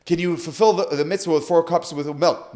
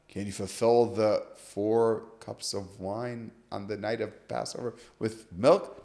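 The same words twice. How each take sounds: First: Said in the usual way. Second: Slow, low, quiet repetition of the question; deliberate restating. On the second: Retold or imitated. Rabbi walking students through the question, deliberate restating. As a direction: spell it out slowly in a lowered voice.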